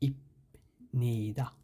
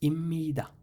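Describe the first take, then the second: First: The first syllable ends with a p sound. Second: The first syllable ends with an m sound. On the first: The speaker calls it wrong. "এখানে উচ্চারণ হওয়ার কথা ছিল ইপনিদা" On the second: The speaker calls it right. "ইম্মিদা ময়ের মতো উচ্চারণ হবে এখানে"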